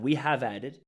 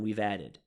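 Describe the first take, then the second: First: Have is said in full as a word. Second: Have is contracted into we've. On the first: The speaker calls it wrong. "Not we have added" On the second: The speaker calls it right. "No, and we've added"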